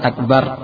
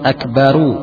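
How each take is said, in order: First: The word ends on the 'r' with no vowel. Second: The word ends with an added 'u' vowel. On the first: The speaker calls it wrong. "bukan akbar" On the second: The speaker calls it right. "Cara menyambungnya dengan akbaru"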